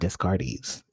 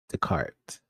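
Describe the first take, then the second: First: The name is pronounced as it is spelled. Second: The name is pronounced the French way. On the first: The speaker calls it wrong. "that's how you spell his last name" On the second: The speaker calls it right. "it's Descartes"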